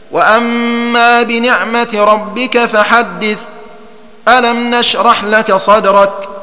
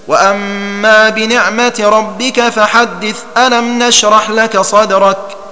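First: A brief pause without breath separates the two verses. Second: The two verses run together with no pause. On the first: The two chapters are kept apart by a light stop. "والسكت هو الوقف على آخر السورة وقفة لطيفة من غير تنفس" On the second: The end of one chapter is joined to the next. "ووجه الوصل معروف هكذا"

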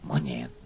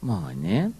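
First: The word is said in a harsh, insulting tone. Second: The word is said in a gentle, playful tone. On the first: It hurts the listener. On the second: It does no harm. "Tuh enggak apa-apa kan?"

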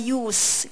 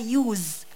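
First: The word ends with an s sound. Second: The word does not end with an s sound. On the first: The speaker calls it right. "في صه sound" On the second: The speaker calls it wrong. "مش بقولها Use"

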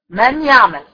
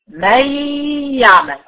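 First: The n sound is pronounced clearly before the y. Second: The n merges into the y, leaving only nasal resonance. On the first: The speaker calls it wrong. "لا طبعا ما عملت لهاش ادغام. ليه؟ لان انا نطقت النون" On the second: The speaker calls it right. "بنقل من الميم على الياء على طول"

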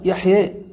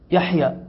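First: The final vowel is tilted toward 'e'. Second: The final vowel is a plain open 'a'. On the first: "هكذا عندهم ينطقون بها" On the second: "من العرب من لا يستطيع أن يقول مثلا يحيى"

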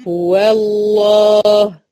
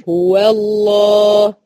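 No difference in how they are said.

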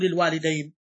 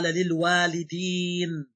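First: The ending is an ay diphthong before n. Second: The ending is a long ee before n. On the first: It includes only the father and mother. The speaker calls it wrong. "إذا تقول الوالدين يدخل فيها فقط الأب والأم" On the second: It includes all ancestors, direct or indirect. The speaker calls it right. "للوالدين مو للوالدين"

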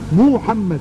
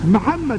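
First: The name is said carefully, every sound fully articulated. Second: The name is said casually, with reduced articulation. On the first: The speaker calls it right. "لازم تحقق اللفظ يا محمد هكذا" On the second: The speaker calls it wrong. "محمد لا"

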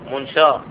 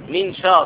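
First: The first vowel is a. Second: The first vowel is i. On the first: The speaker calls it wrong. "وليس منشار" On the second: The speaker calls it right. "المن مكسورة، مي، منشار"

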